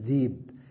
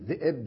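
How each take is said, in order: First: No glottal stop is heard in the middle. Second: A glottal stop is heard in the middle. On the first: This is the form with the hamza dropped. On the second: This is the form with the hamza kept.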